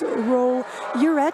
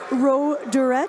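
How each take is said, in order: First: No d sound is heard mid-name. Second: A d sound is heard mid-name. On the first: The speaker calls it right. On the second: The speaker calls it wrong. "It's not"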